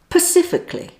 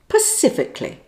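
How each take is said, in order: First: The word starts with a p sound, like Pacific. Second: The word starts with a p sound, like Pacific.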